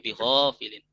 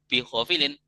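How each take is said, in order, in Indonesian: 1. Vokal setelah 'h' dibaca panjang. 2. Vokal setelah 'h' pendek. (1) "dua harokat" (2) "nggak boleh"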